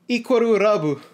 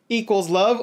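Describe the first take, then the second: First: It is said with Japanese-style pronunciation. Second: It is said with plain English pronunciation.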